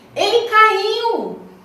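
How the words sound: It is said with surprise and astonishment.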